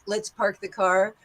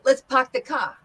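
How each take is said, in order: First: It is said in a standard American accent. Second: It is said in a New York accent. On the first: "as I would say in standard dialect" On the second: "the New York accent, which uh, changes the R to the H"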